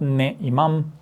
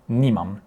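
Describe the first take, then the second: First: Ne imam said as two separate words, ne then imam; wrong form shown. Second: Nimam as a single fused word, NI-mam; fuse it into one word, nimam; correct form shown. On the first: Teacher showing the incorrect two-word negation ne imam. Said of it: "It's not ne imam". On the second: Teacher giving the correct one-word negation nimam. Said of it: "it's nimam". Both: Shown as a demonstration.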